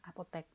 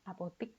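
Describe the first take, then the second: First: The last syllable is said with an 'e' vowel. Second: The last syllable is said with an 'i' vowel. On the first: The speaker calls it right. "padahal yang benar adalah apotek" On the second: The speaker calls it wrong. "Kadang kita mengucapkan apotik gitu ya"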